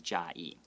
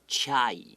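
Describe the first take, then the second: First: The name starts with a 'j' sound. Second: The name starts with a 'ch' sound. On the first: It is the intended local pronunciation. The speaker calls it right. "just know that he's trying to say Jai" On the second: It is read from the English spelling. The speaker calls it wrong. "as an American, if I saw how we spell Chiayi, I might pronounce it Chai"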